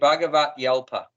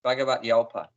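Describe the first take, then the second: First: The y is joined onto the start of alpa. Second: The y is joined onto the start of alpa.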